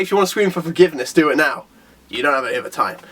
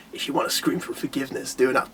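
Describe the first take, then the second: First: Deeper, lightly voiced villain threat, sinking lower; a hint of a gloating villain. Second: Menacing low whisper of a villain. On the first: Bakuzan taunting Saitama, a touch deeper. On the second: Retold or imitated. Bakuzan threatening Saitama in a low whisper. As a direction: breathe the threat softly, lower. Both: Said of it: "Is that Bakuzan's voice".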